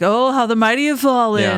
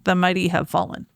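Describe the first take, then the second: First: It is said in a sarcastic, mocking tone. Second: It is said in a sincere, mournful tone.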